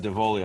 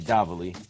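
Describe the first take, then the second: First: The name is said with an English pronunciation. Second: The name is said with an Italian pronunciation.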